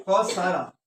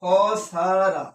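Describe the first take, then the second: First: Said in the usual way. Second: খসারা drawn out very slowly, syllable by syllable; slowly spelled out. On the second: Shown as a demonstration. Teacher modelling the Arabic word for students, drawn out slowly. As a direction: stretch খসারা so the students catch each syllable. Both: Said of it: "ফেল বা verb হচ্ছে খসারা।".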